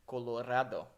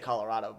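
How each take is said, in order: First: The name has a Spanish-like pronunciation. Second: The name has a plain English pronunciation. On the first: "the pronunciation is supposed to be Colorado" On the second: "I say Colorado"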